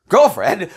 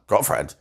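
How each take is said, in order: First: Put-on "Girlfriend?" much higher and louder with a sharp rise; shocked repeat. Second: Said in the usual way. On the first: She hears that he fetched his ex and repeats "Girlfriend?" in shock. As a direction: echo "Girlfriend?" in jealous disbelief.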